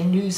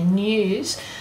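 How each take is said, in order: First: The vowel follows the n with no y sound. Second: A small y sound comes between n and vowel. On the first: "Americans say news" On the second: "and we say news"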